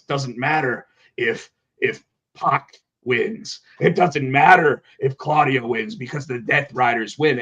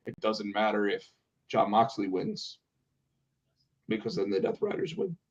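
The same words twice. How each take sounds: First: Slow, deliberate imitation of Moxley; drawn-out, measured wrestler promo; slow Moxley impression. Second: Much softer, flat, lifeless promo; flat Claudio impression. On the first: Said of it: "So Jon Moxley says". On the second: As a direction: mumble it with no energy. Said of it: "he said it just like that".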